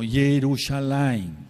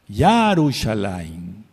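First: The first syllable is said with an 'e' vowel. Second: The first syllable is said with an 'a' vowel. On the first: It avoids pronouncing the divine name Ya. The speaker calls it wrong. "muchos dicen, bueno, Yerushalayim. No" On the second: It keeps the divine name Ya in the word. The speaker calls it right. "no quieren pronunciar el Ya de Yahweh, pero es Yarushalayim"

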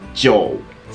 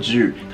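First: The vowel sounds like 'o' before 'u'. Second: The vowel sounds like a plain 'u'. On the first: The speaker calls it right. "読み方はジョー" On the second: The speaker calls it wrong. "そのまま読んでしまうとジュー"

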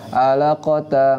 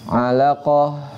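First: The word ends with a short 'a' vowel. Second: The word ends with an 'h' sound. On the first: The speaker calls it wrong. "ketika dia disukun, dia enggak alaqata, enggak" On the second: The speaker calls it right. "Khusus untuk tak marbutoh pas dia diwaqaf"

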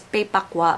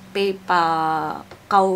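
First: The name ends with a kwa sound. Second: The name ends with a kaw sound. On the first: This was the earlier way of saying it. The speaker calls it wrong. "Dati ang pronunciation ko is Paypakwa" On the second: This is probably the proper way of saying it. The speaker calls it right. "pero Paypakaw yata"

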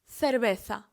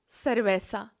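First: The sound before the final a is th. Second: The sound before the final a is th.

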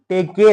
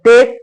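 First: An extra vowel is sounded after the k. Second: The word ends cleanly on the k. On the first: The speaker calls it wrong. "टेके नाही" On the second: The speaker calls it right. "तर टेक"

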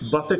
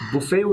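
First: It ends in an it sound with audible t. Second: It ends in an ay sound with silent t. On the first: To strike something hard from side to side. "যখন উচ্চারণ করবেন বাফেট তখন এটা একটা verb" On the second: A meal where people serve themselves. "এই শব্দটি বুফে উচ্চারণ হতে পারে"

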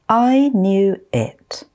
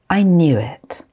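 First: The phrase is spoken slowly. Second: The phrase is spoken at normal speed. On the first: "I'm going to say them slowly first" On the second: "Then I'll say them at normal speed"

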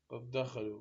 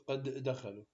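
First: The two d sounds merge into one. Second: The two d sounds are kept separate. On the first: The speaker calls it right. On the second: The speaker calls it wrong.

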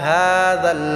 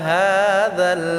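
Both takes have the same delivery.

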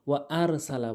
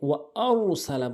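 First: The r sound is thin and light. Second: The r is heavy with rounded lips. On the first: The speaker calls it wrong. "এখানে ভুল যেটি করে সেটি হচ্ছে ওয়ারসালা বলে" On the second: The speaker calls it right. "মুখটি গোল করে, গোলাকার করে, পুর করে বলতে হবে"

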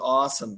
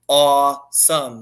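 First: It is said lightly and casually. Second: It is said slowly with deep awe. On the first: Something was merely nice, like an ordinary meal. The speaker calls it wrong. "I went to the restaurant. It was awesome" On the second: Something is truly awe-inspiring, like the pyramids. The speaker calls it right. "it is awesome"

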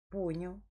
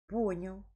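No difference in how they are said.

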